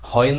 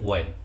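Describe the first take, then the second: First: The word begins with a breathy h sound. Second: The word begins with a plain w sound. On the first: The speaker calls it wrong. "হয়েন না" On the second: The speaker calls it right. "শব্দ কি ভাই ওয়েন"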